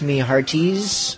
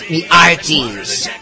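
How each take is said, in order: First: The H at the start of hearties is pronounced. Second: The H at the start of hearties is dropped.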